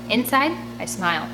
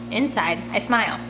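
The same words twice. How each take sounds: The two takes are said the same way.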